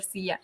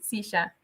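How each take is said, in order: First: Silla said "siya", ll like y; standard Spanish ll. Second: Silla said "sisha", ll as sh; Argentinian sh for ll. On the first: To host, contrasting standard silla with y sound. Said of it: "instead of". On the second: To kids taking their seats, Argentine sh in Silla. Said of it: "the double L is, like, more of a sh". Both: Shown as a demonstration.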